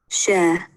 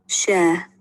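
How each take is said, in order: No difference in how they are said.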